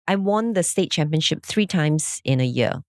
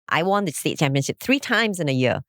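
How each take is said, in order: First: It is said in a plain, matter-of-fact tone. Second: It is said in a boastful, arrogant tone. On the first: The speaker is simply stating an achievement. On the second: The speaker is showing off.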